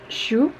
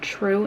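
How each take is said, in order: First: The name begins with a 'sh' sound. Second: The name begins with a 'tr' sound. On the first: This is how the speaker thinks it is said. The speaker calls it right. "but I think it's Shu" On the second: This is how the audiobook narrator said it. The speaker calls it wrong. "it sounded like she was pronouncing it true in the book"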